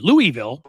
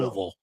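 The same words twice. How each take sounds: First: Each syllable of the name is said clearly. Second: The name is mumbled, as if with food in the mouth.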